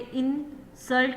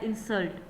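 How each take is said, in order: First: The stress is on the first syllable. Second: The stress is on the second syllable. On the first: It is used as a noun. "पहले हिस्से में जो है ना वो stress दे रहे हैं, तो वो हमारे पास होता है जी noun" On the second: It is used as a verb. "दूसरे वाले हिस्से में जो है ना वो स्ट्रेस दे रहे हैं, वो हमारे पास होगा जी वर्ब"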